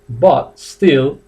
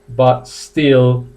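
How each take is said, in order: No difference in how they are said.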